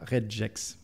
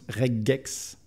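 First: The g is pronounced soft, as in gel. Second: The g is pronounced hard, as in go. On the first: The speaker calls it wrong. "pas regex" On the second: The speaker calls it right. "ça se prononce regex, ... parce que c'est le G dur de regular"

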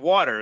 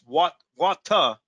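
First: It is said in a standard US accent. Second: It is said in a Southeastern US accent. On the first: "Nobody pronounces it water" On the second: "It's WAWTUH in the southeast"

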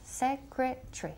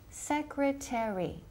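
First: It is said with about three syllables. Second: It is said with four full syllables. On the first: This is how people from the UK say it. "if you're from England or from the UK... casi tres sílabas" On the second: This is how Americans say it. "Americans say secretary, con cuatro sílabas"

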